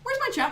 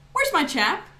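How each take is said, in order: First: It is said in an American accent. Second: It is said in a British accent. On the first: He is looking for his lip balm. "a guy with dry lips who abbreviates words" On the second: He is looking for his friend. "a British guy looking for his friend"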